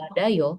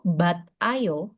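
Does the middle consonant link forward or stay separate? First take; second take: link forward; stay separate. First: The consonant links smoothly into the next syllable. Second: The t ends the first syllable, with a break. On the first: The speaker calls it right. "ketika dibaca, bacanya itulah ba, da, yo" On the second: The speaker calls it wrong. "tulisannya seperti ini, bat, ayo"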